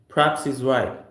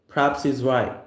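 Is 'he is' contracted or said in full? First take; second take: contracted; contracted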